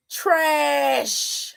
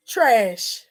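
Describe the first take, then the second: First: Long, stretched-out "Trash"; drawn-out disgust. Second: Said in the usual way. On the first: Real, not acted. Upset woman judging what he said, drawn-out "Trash". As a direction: hold the vowel of "Trash" right through.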